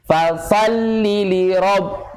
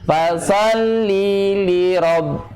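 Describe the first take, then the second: First: The vowel is short, flowing straight into 'li'. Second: The vowel before 'li' is held for two beats. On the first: It is a command to a single man. The speaker calls it right. "bacanya harus begini. ... jadi enggak ada jeda" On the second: It becomes a command to a woman. The speaker calls it wrong. "Panjang itu, dua harkat"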